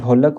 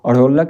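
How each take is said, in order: First: The first consonant is a hard stop. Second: The first consonant is a flapped sound. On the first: The speaker calls it right. "ढोलक होती है" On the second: The speaker calls it wrong. "अढ़ोलक नहीं होती है बच्चों"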